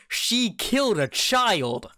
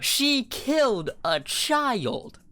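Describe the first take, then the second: First: Put-on "She killed a child" said slowly, higher and heavier; slow emphatic statement. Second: Put-on "She killed a child" stretched out, pitched much higher; even slower, much higher repeat. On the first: Friend drives home the point, slow and emphatic. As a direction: lean on every word of "She killed a child". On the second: Repeating it so the friend gets it, stretched incredulous. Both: Shown as a demonstration.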